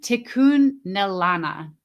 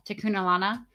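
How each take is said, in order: First: Tikunelana sounded out slowly, middle stretched; sounding out username. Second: Tikunelana run together with a questioning rise; unsure pronunciation. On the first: Host attempts a viewer's username, Tikunelana slowly sounded out. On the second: Host checks a viewer's username, Tikunelana with an unsure rise. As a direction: try Tikunelana as a question, ending upward. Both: Real, not acted. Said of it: "I can't pronounce your username".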